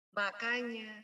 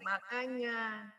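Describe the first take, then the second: First: "makanya" said pointed and reproachful; accusing "makanya"; cornering makanya. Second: "makanya" drawn out slow and pointed; reproachful "makanya", slow; cornering makanya. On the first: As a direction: lean on "makanya" as a blame. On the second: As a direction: stretch "makanya" like an I-told-you-so. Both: Shown as a demonstration. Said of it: "Dengan intonasi makanya".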